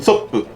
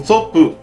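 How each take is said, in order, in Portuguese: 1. O nome é falado um pouco mais rápido. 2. O nome é falado em ritmo normal. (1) "você fala um pouquinho mais rápido" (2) "se fosse um P só"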